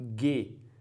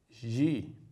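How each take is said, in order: First: The consonant is a hard g sound. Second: The consonant is a soft zh sound. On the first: The speaker calls it right. "sempre o som de G, como se tivéssemos um G U, como na palavra guerra" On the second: The speaker calls it wrong. "o som do gama nunca é o som G"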